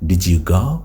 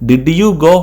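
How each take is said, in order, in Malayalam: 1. d ഉം y ഉം ചേർന്ന് j ശബ്ദമാകുന്നു. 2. d ഉം y ഉം വേറെ വേറെയായി തന്നെ നിൽക്കുന്നു. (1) "ശരിക്കും പറയേണ്ടത്" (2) "ഡിഡ് യു ഗോ എന്ന് പറയുമ്പോൾ ഒരു സുഖമല്ല"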